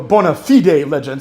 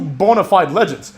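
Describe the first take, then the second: First: 'Bona fide' is given a careful, formal pronunciation. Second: 'Bona fide' is given a casual, everyday pronunciation. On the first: The speaker calls it right. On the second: The speaker calls it wrong.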